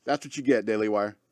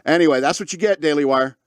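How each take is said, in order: First: The taunt said again much softer and lower; a soft muttered echo of the jab; quiet repeat. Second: Said in the usual way. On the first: Real, not acted. Taunting Daily Wire, repeated.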